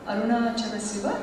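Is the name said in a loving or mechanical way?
mechanical. It is said flatly and quickly, without feeling. The name is repeated by rote. The speaker calls it wrong. "అలా కాదు"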